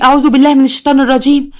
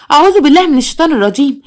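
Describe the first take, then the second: First: A shocked plea, pitch raised; shocked prayer. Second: Higher, more frantic repeat; rising shock. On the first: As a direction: murmur it in disbelief. (استعاذة مصدومة) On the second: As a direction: say it again, panic building. (استعاذة أعلى وأكثر ذعرا) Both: A narrator's reading. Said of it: "قالت بصدمه".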